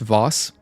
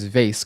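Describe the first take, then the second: First: The word is said with the British-style vowel. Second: The word is said with the American-style vowel. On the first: "some people pronounce vase Voss" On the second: "I've always heard this as vase growing up"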